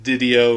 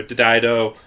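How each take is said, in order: First: Didio in the first of two variant pronunciations. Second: Didio in the second of two variant pronunciations; alternative pronunciation. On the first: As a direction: say Didio the first way, as one option. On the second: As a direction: say Didio the other way, offered as an alternative. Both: Shown as a demonstration. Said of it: "however you wanna pronounce his name".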